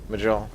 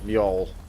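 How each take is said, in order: First: The J is sounded as a hard J. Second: The J is sounded like a Y. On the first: The speaker calls it wrong. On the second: The speaker calls it right.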